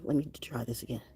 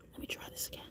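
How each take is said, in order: First: Said in the usual way. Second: Whispered. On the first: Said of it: "repeat whispered". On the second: Real, not acted. Whispered repeat.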